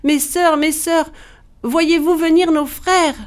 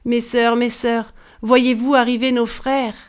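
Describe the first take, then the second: First: High-pitched, urgent call; crying out. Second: Restrained, anxious call to her sisters. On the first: Wife crying toward the ramparts for her sisters, urgent high cry. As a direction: call desperately to someone far up above. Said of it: "elle criait en direction des rempart". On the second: Wife calling her sisters on the ramparts, mildly urgent. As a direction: call up to them without shouting. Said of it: "elle appela ses sœurs". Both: A narrator's reading.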